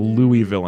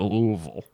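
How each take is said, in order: First: The word is said plainly, not from the throat. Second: The word is said low, deep in the throat. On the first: The speaker calls it wrong. "we were saying Louisville" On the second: The speaker calls it right. "you got to put it way down there. It's got to be more deep in your throat"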